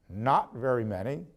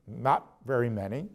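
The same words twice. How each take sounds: The two takes are said the same way.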